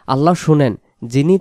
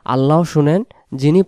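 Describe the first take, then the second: No difference in how they are said.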